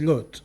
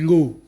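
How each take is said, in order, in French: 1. Ça finit par un t final bien prononcé. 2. Ça finit sur la voyelle, sans t final. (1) "mais c'est Lot. Je prononce Lot comme ça" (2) "certains endroits, on dit l'eau"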